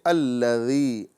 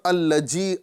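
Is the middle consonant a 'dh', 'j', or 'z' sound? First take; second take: dh; j. First: The middle consonant is a 'dh' sound. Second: The middle consonant is a 'j' sound. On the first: The speaker calls it right. "बल्कि अल्लज़ी" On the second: The speaker calls it wrong. "अल्लजी नहीं पढ़ना है"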